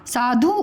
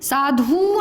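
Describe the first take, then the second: First: साधु with a quick final u; short ending. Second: साधु with the final u drawn out; wrong long ending. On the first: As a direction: keep the last vowel of साधु brief. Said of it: "कम समय लगाना". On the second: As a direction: drag the last vowel of साधु into ooo. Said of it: "नहीं होता है". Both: Shown as a demonstration.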